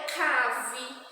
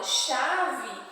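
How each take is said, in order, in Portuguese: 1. A palavra começa com som de k. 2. A palavra começa com som de sh.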